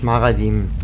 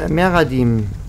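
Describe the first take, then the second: First: The first vowel sounds like 'a'. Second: The first vowel sounds like 'e'. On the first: The speaker calls it wrong. "nicht Maradim" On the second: The speaker calls it right. "Meradim, nicht Maradim"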